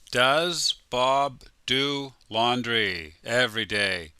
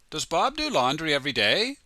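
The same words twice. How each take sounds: First: It is said at a normal, careful speed. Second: It is said quickly, with words run together.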